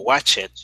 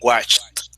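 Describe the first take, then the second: First: The ending is an extra it syllable. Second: The ending is a short t, one syllable. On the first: The speaker calls it wrong. "no watch it" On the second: The speaker calls it right. "We say watched"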